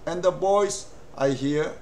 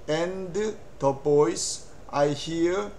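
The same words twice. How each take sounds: First: The words are linked smoothly together. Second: Each word is said separately and clearly. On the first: The speaker calls it right. "연음으로 하면 이렇게 합니다" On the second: The speaker calls it wrong. "이렇게 이야기한다면 참 좋겠습니다만, 이렇게 얘기를 하지 않습니다"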